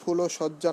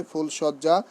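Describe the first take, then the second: First: ফুলসজ্জা as phulo-shojja, extra o after l; wrong pronunciation. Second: ফুলসজ্জা as phul-shojja, no linking o; correct pronunciation. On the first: Teacher showing students what to avoid, wrong pronunciation. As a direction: say ফুলসজ্জা with an added middle o. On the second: Teacher correcting the exception for students, correct pronunciation. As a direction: say ফুলসজ্জা with l straight into sh. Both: Shown as a demonstration. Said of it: "নয়".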